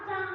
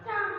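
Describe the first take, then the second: No difference in how they are said.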